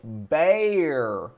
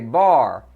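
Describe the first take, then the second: First: The vowel sounds like the 'air' in 'hair'. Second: The vowel sounds like the 'ar' in 'car'. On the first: "the word that y'all Yankees say ba- bear" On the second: "That's how we cowboys pronounce the word"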